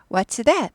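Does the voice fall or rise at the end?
fall. The voice falls at the end. The speaker calls it right. "하고 끝을 내려서 물어봅니다"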